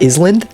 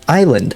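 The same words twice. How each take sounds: First: Every spelled sound is pronounced in the word. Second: A spelled sound is dropped from the word. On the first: The speaker calls it wrong. "do you say island like island? No, you don't" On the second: The speaker calls it right. "You say you say island"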